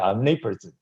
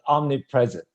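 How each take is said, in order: First: It is said smoothly as one word. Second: It is split into two separate words. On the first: "some people say" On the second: "I like to read it in as a two word"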